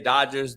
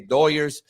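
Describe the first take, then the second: First: It is said with a plain American English accent. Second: It is said with a Spanish-influenced accent. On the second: "The Hispanics say"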